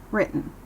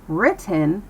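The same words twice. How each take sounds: First: "written" with the T caught in the throat, like "writ'n"; held-back T. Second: "written" with a full T, like "writ-ten"; overpronounced T. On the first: Teacher models American speech, unreleased T in "written". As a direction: swallow the T in "written" straight into the N. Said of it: "it still keeps its voice down". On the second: Teacher shows what to avoid, hard T in "written". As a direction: sound out the T in "written". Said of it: "Instead of saying". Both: Shown as a demonstration.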